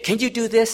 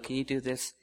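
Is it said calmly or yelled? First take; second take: yelled; calmly. First: It is said in a loud yell. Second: It is said in a calm voice.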